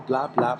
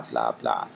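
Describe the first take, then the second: First: Said in the usual way. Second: Dropped far lower into a mock deep drone; mock deep blah. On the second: Vlogger mocking people who only talk, deep mock drone. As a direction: sink way down for a sarcastic blah.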